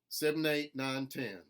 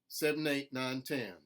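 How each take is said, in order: No difference in how they are said.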